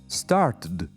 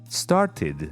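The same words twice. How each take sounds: First: The word ends with a plain d sound. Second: The word ends with an id syllable. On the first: The speaker calls it wrong. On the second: The speaker calls it right. "Yes. Id"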